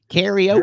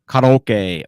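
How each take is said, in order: First: Karaoke is said the Western Hemisphere way. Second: Karaoke is said in a non-Western way.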